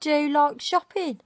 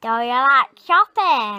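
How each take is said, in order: First: Brummie model line, rising; Birmingham accent. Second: Loud northern English twang on shopping; northern accent. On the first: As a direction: demo the Brummie way of saying it. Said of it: "teach Clarice a Birmingham accent". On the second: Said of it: "That's northern". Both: Shown as a demonstration.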